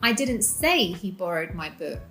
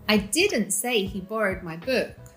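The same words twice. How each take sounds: First: The stress falls on the word 'say'. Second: The stress falls on the word 'didn't'. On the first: Something else was said instead. "I said something else" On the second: The statement was never made. "This is not true"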